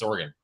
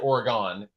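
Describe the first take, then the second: First: The last syllable is a reduced 'gun'. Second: The last syllable is a full 'gone'. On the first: The speaker is from west of the Mississippi. "they wanted to drop a vowel" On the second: The speaker is from east of the Mississippi. "we all said Oregon"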